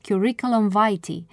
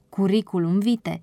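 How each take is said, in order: First: It is pronounced the English way. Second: It is pronounced the Latin way. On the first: The speaker calls it wrong. "pronunțarea de către anglofoni inculți" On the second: The speaker calls it right. "printr-o expresie latină"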